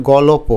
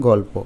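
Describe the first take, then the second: First: গলপ in three syllables, "gaw-lo-po"; without hasanta. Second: গল্প in two syllables, "gawl-po"; no vowel between l and p in গল্প; with hasanta. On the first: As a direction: insert an o after the l in গলপ. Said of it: "হসন্ত না দিই". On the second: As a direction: join l straight onto p in গল্প. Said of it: "যদি হসন্ত দিই". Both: Shown as a demonstration.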